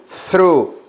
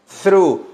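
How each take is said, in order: Both takes have the same delivery.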